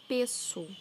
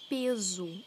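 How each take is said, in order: First: The middle consonant is a hissing S sound. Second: The middle consonant is a buzzing Z sound. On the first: The speaker calls it right. "eu falo peso" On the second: The speaker calls it wrong. "eu não falo peso"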